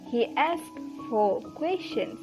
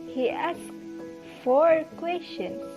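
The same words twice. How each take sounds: First: The word four is weak and reduced. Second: The word four is stressed and full. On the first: The number of questions is not the point. "But when weaken it" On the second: The number of questions was four. "he emphasized the word four"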